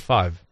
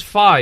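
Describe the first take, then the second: First: Said in the usual way. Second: "fi" as his dad says five; clipped fi for five. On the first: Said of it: "instead of". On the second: Shown as a demonstration. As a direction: say "fi" dropping the v sound, louder and higher. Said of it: "he says "fi" instead of "five".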